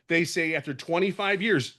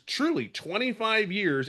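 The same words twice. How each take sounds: First: Said in the usual way. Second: Truly slowed and pitched higher; stress on truly. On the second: Real, not acted. Stressing his long career to the group, slow and emphatic. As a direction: lean hard on truly, slowly.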